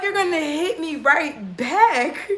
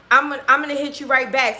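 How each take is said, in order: First: Slow, higher, drawn-out repeat; incredulous echo. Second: Said in the usual way. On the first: Retold or imitated. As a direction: throw it back in disbelief, slowly. Incredulously repeats his words back. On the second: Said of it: "now he's like".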